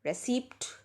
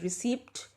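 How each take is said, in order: Both takes have the same delivery.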